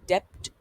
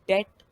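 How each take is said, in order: First: A p sound is heard before the t. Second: No p sound is heard before the t. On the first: The speaker calls it wrong. "वो एक incorrect या गलत pronunciation है उसकी।" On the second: The speaker calls it right. "वही इसकी सही pronunciation है।"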